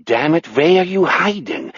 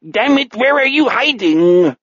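First: Less heated pseudo-German question; moderately raised, odd German-like voice; weird non-German accent. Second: High, angry pseudo-German call; exasperated villain with a mutated German accent; frustrated non-German accent. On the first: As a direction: repeat it with the accent melting toward German. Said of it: "accent melts into that weird non-German". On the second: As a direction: demand it high-pitched in a weird German-like accent. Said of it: "The more angry and frustrated". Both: Acted.

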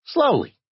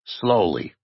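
First: High-pitched admission; small, high character voice; Digger. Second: Said in the usual way. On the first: A narrator's reading. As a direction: concede it in a high little voice. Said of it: "Digger admitted gloomily". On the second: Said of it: "Jay said".

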